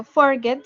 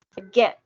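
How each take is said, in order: First: "forget" stressed on the first syllable, FOR-get; wrong first-syllable stress. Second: "forget" stressed hard on the last syllable, for-GET; final-syllable stress. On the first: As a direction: hit the FOR of "forget", leave get weak. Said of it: "Yo no digo forget". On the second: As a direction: punch the GET of "forget" loudly. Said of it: "la acentuación esté al final". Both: Shown as a demonstration.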